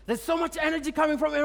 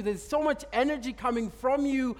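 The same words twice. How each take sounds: First: Quicker, higher, leaning on so; fast emphatic repeat. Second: Drawn-out wondering report; slow awed quote. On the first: Shown as a demonstration. Preacher repeats the man's words to the congregation, fast and emphatic. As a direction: press the line out with excitement. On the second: Retold or imitated. Man in the square tells the preacher in slow awe. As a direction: let each word hang in awe. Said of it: "It's like".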